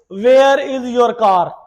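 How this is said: The R at the end of car is strong. "we put the emphasis on car, on R"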